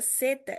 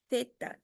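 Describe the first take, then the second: First: The first sound is a hissing s. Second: The first sound is a th, tongue between teeth. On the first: "como se vocês estivessem pronunciando uma S" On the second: "língua entre os dentes"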